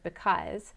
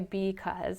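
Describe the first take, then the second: First: The first syllable has a reduced schwa vowel. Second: The first syllable has a full, unreduced vowel.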